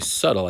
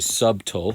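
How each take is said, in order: First: The b sound is left out entirely. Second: The b sound is clearly pronounced. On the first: The speaker calls it right. "as if the B wasn't even there" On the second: The speaker calls it wrong. "We don't say subtle"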